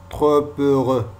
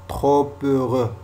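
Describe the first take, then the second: No difference in how they are said.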